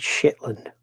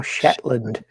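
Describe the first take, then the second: First: Shetland echoed as a puzzled, drawn-out question; questioned place name. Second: Shetland said slowly and deliberately as the correction; corrected place name. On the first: Retold or imitated. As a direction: say "Shetland" slowly, as the mistaken version being queried. Reads a misnamed Shetland, then corrects it. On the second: Shown as a demonstration. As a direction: stretch out "Shetland" to set the name straight. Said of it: "No, Shetland".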